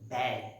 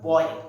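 First: The vowel is an open 'ae' sound. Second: The vowel is not an open 'ae' sound. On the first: The speaker calls it right. "আমরা উচ্চারণ করছি ব্যয়" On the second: The speaker calls it wrong. "কিন্তু উচ্চারণ আমরা বয় এভাবে করি না"

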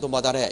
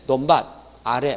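First: The two words are run together in one linked phrase. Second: The two words are said separately, without linking. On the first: The speaker calls it right. "연이어 발음할 때" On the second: The speaker calls it wrong. "이렇게 하지 않죠"

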